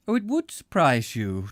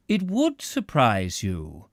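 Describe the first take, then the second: First: Calm, placid reply; unruffled, nothing surprises him. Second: Placid. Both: A narrator's reading. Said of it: "still in the same placid voice".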